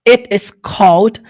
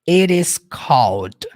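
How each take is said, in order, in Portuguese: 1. O t em 'it' é nítido e bem marcado. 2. O t em 'it' é suavizado, quase como r. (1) "Poderia ser assim, um pouco mais ríspido" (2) "ele puxa um pouco ali do inglês, é um pouquinho americano isso"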